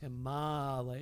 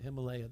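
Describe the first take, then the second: First: The vowel after 'Him' is long. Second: The vowel after 'Him' is short. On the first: The speaker calls it right. "It's Himalaya" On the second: The speaker calls it wrong. "that's not right"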